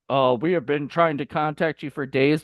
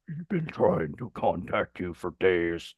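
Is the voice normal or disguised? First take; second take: normal; disguised. First: It is said in a normal voice. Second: It is said in a scary, disguised voice.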